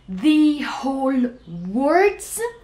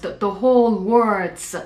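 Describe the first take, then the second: First: The word 'the' is said with strong stress. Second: The word 'the' is said without stress.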